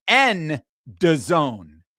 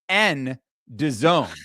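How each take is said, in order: The two takes are said the same way.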